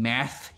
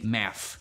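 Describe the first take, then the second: First: The word ends with a th sound. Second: The word ends without a th sound. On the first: The speaker calls it right. "instead of saying math" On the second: The speaker calls it wrong. "he couldn't say uh like like words that end with th"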